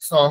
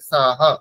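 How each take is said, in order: First: The vowels sound like an o. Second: The vowels sound like an open a. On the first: The speaker calls it wrong. "Bangla উচ্চারণ করার সময় আমরা ও উচ্চারণ করি" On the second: The speaker calls it right. "অকারের উচ্চারণ আমরা অকারের মতোই করব"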